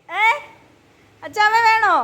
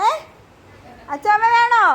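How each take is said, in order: Both takes have the same delivery.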